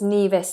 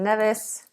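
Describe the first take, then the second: First: The first vowel is a long e. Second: The first vowel is a short e.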